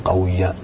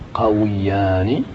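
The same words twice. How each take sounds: First: The waw is pronounced without an i vowel. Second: The waw is pronounced with an i vowel. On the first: The speaker calls it wrong. "ولا تقول قويان" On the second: The speaker calls it right. "تقول قويان ... قويان تكسر الواو"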